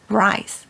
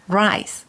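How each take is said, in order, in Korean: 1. 혀를 말아 올린 영어 R 소리로 시작해요. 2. 혀를 말아 올린 영어 R 소리로 시작해요.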